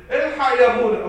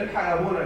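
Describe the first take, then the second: First: Crying out for help, high and loud; a parent wailing to the priest for rescue; tearful plea. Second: Said in the usual way. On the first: Retold or imitated. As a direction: beg the priest in mock tears. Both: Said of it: "تيجي تعيطوا في الاخر وتقولوا".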